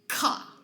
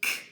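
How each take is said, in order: First: The k sound ends with an added uh vowel. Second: The k sound ends clipped, with no vowel. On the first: The speaker calls it wrong. "they accidentally add the schwa sound to the end" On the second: The speaker calls it right. "I should say k"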